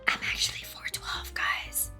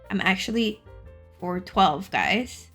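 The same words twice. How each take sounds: First: It is spoken in a whisper. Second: It is spoken in a normal, full voice. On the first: The speaker calls it right. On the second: The speaker calls it wrong.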